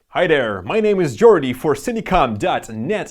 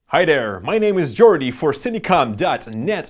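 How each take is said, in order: First: The voice sounds slightly dull and muffled. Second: The voice sounds slightly brighter and clearer. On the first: The speaker calls it wrong. "the Saramonic sounds a little more dull" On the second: The speaker calls it right. "Sennheiser might have won this battle"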